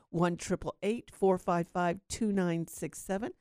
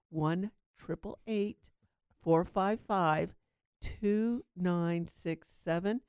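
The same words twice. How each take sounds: First: The number is said at normal, quick speed. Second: The number is said slowly.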